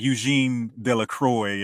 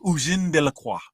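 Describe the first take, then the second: First: The name is read with a Southern American accent. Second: The name is said with a French pronunciation. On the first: This is how it looks to someone from the South. The speaker calls it wrong. "it looks like Eugene Delacroix if you're from the South, like I am" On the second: This is the correct French name. The speaker calls it right.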